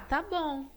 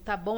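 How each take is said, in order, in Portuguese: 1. É dito com um tom calmo e relaxado. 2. É dito com um tom seco, irritado. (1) "é um ah, tá bom, de boa, tô, tô tranquilo" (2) "tá bom, acabou, tô brava, não fala comigo"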